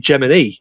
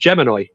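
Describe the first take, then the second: First: The final vowel sounds like 'ee'. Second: The final vowel sounds like 'eye'. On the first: The speaker calls it right. "It's actually meant to be Gemini" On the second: The speaker calls it wrong. "mispronounces the star sign Gemini"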